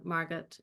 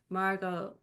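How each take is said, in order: First: The name is said with German sounds. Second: The name is said with English sounds.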